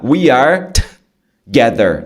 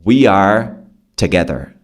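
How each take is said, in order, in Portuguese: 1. A primeira sílaba tem um t fortemente exagerado. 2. A primeira sílaba tem um t leve e rápido. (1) "Eu tô exagerando para você pegar" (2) "É só um t. Não precisa exagerar"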